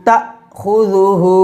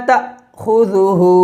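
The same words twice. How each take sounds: No difference in how they are said.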